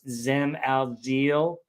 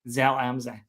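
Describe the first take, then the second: First: The name is said with an American pronunciation. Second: The name is said with a local German pronunciation. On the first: The speaker calls it wrong. "I I pronounced it like American" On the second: The speaker calls it right. "Thank you for correcting me"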